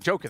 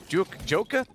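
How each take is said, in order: First: The name is pronounced in a plain English way. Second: The name is pronounced with a Swedish-sounding vowel pattern. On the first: The speaker calls it right. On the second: The speaker calls it wrong. "I always say it wrong. ... for some Swedish reason"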